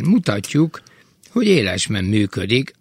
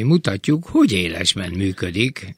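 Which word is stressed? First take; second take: élesben; hogy. First: The stress falls on the word élesben. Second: The stress falls on the word hogy. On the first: The speaker calls it right. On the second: The speaker calls it wrong.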